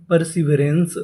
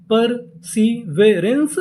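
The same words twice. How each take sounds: First: Said in the usual way. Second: perseverance stretched very slowly, rising; drawn-out model reading; very slow word. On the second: Shown as a demonstration. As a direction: say it very slowly for learners. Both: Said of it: "पूरी meaning क्या बनी".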